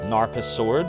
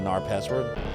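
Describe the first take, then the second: First: It is split as 'Narpa' plus 'Sword'. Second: It is split as 'Nar' plus 'Password'. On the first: "it's the other way" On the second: "as opposed to"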